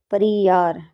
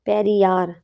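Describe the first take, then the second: First: परियार with a short a, pa-ri-yaar, like pari the fairy; said as Pariyar. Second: Said in the usual way. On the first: Shown as a demonstration. Teacher to students, recasting the park name as परियार with a short pa. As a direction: bend पेरियार into परियार, pa-ri-yaar. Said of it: "परियार, ठीक है।".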